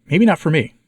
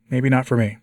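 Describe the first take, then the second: First: "not" punched, said higher and louder; stress on not. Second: Said in the usual way. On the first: Real, not acted. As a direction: hit "not" hard, falling after. Repeats phrase, first take emphatic.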